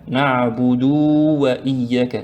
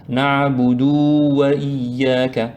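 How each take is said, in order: Both takes have the same delivery.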